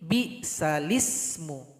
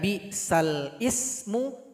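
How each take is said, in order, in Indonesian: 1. Huruf lam menerima vokal, lalu tersambung ke ismu. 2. Huruf lam mengakhiri suku kata; ismu dimulai terpisah. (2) "Yang awalnya dibaca"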